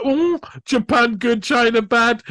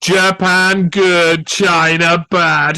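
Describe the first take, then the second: First: Higher, teasing repeat; high mocking sing-song. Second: Slow, loud, blunt slogan; slow, louder mocking chant; mock caveman slogan. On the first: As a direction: tease it like a playground jeer. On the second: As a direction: spell it out slowly like a dumb slogan. Mocking simplistic message.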